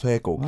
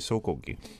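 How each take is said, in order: First: The first syllable sounds like 'sweh'. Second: The first syllable sounds like 'so'. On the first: This follows the written spelling. "Swegogi is how it's spelt" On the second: This is how people actually say it. "but you just say Sogogi"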